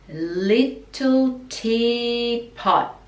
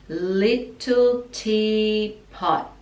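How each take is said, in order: Both takes have the same delivery.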